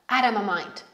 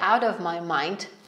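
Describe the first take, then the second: First: The t is a quick flap like an r. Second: The t is a clear, separate t sound. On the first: "wychodzi nam takie flap t, które wymawiamy bardziej jak ry" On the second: "jeżeli powiecie out of my mind, to jest też idealnie"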